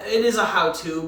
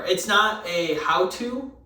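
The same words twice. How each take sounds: First: "is" punched higher and louder; stress on is. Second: "not" slowed and leaned on, rising at the end; stress on not. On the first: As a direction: correct yourself by hitting "is". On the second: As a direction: hit "not" in "It's not a how-to". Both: Real, not acted.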